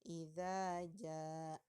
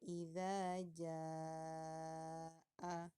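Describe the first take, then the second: First: The vowel in 'jaa' is held two beats. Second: The vowel in 'jaa' is held four to six beats. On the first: The speaker calls it wrong. "hanya dibaca dua harokat" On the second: The speaker calls it right. "seharusnya dibaca panjang empat atau enam harokat"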